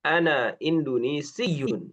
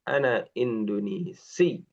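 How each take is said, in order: First: The last word ends with a full 'yun' syllable. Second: The last word stops on a pressed 'si' sound. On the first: "kalau mau diucapin belakangnya" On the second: "kalau nggak mau dibaca yunnya, bisa disukun, cuma ditekan"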